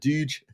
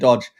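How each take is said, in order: First: The vowel is long, as in stooge. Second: The vowel is short, as in dodge. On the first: This is a guess at how Americans say it. "so is it Dooge?" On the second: This is how the speaker's own accent says it. "I've been saying Dodge"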